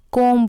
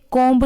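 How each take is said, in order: First: कॉम ending on m; silent b. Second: कॉम्ब with the b sounded; mispronunciation. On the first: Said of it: "बी है वो silent है". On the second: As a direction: say कॉम्ब ending in "mb". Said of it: "इसे कॉम्ब नहीं बोलते". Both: Shown as a demonstration.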